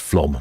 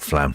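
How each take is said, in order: First: The vowel is said like an 'o'. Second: The vowel is said like an 'a'. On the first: The speaker calls it right. "he says it's Flom" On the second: The speaker calls it wrong. "not Flam"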